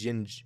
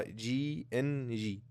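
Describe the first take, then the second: First: "جينج" as one word, not spelled letters; name run together. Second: "جي ان جي" said very slowly, each letter separate and soft; G-N-G spelled out. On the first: Host shows viewers the mistaken team name, one-syllable "جينج". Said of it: "مش جينج". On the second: Host clarifies the team's name for viewers, slow letter-by-letter "جي ان جي". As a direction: draw out "جي ان جي" as three distinct letter names. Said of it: "وزي ما بحب اوضح كل مره". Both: Shown as a demonstration.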